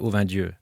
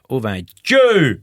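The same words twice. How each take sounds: First: It is said in a standard French accent. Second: It is said in a rural country accent. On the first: The speaker calls it wrong. "il faut pas le prononcer au vin Dieu" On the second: The speaker calls it right. "comme à la campagne"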